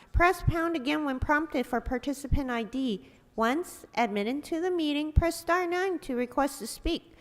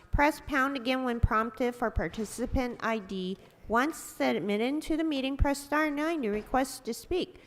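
No difference in how they are said.

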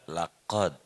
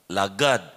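First: The middle consonant is a deep throaty q. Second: The middle consonant is a hard g.

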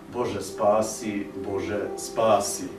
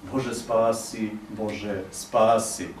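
The two takes are said the same way.

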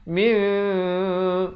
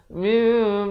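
First: The nasal sound is held for longer. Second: The nasal sound is cut short. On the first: The speaker calls it right. "panjang dia dua harakat" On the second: The speaker calls it wrong. "tidak cukup harakat"

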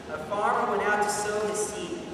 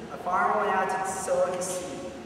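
Both takes have the same delivery.

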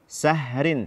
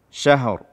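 First: The word begins with a plain s sound. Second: The word begins with a spread sh sound. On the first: The speaker calls it wrong. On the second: The speaker calls it right.

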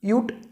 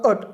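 First: The vowel is pronounced like 'yoo'. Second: The vowel is pronounced like 'uh'. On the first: "यू टीचा उच्चार यू असा पण होतो यूसारखा पण होतो" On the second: "किंवा अट असा पण"

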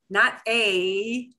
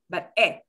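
First: The vowel is drawn out and glides. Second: The vowel is short and steady. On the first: The speaker calls it wrong. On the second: The speaker calls it right.

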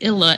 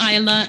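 First: The first vowel is short, like 'ill'. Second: The first vowel is long, like 'eye'. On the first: The speaker calls it wrong. "people pronounce it Illa" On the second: The speaker calls it right. "I put the the with the long vowel sound symbol over it"

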